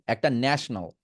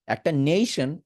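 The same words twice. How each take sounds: First: ন্যাশনাল said nash-nal with a short flat a; national with short a. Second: নেশন said nay-shon with a long ay; nation with nay. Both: Shown as a demonstration. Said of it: "so নেশন, আরেকটা হচ্ছে ন্যাশনাল".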